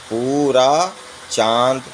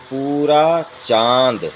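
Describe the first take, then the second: The two takes are said the same way.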